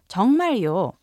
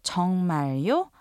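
First: The pitch falls at the end. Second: The pitch rises at the end. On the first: The speaker confirms that it is really true. "replace the question mark with the exclamation mark" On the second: The speaker is asking whether it is really true. "with the rising intonation indicating a question"

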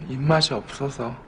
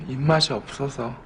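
No difference in how they are said.

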